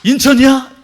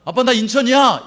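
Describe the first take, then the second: First: Loud, high astonished echo; astonished dad. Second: Bright phone announcement to dad; child calling dad. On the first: Father hearing his child landed, loud astonished question. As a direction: blurt it out in shock. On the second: Child phoning dad to announce arrival, cheerful. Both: Acted. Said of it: "그럼 놀래, 안 놀래요?".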